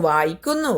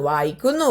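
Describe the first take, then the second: The two takes are said the same way.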